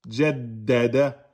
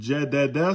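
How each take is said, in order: First: The d sound is held and doubled. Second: The d sound is short and single. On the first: The speaker calls it right. "On bloque, on lâche" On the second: The speaker calls it wrong. "Si vous dites jadada, c'est faux"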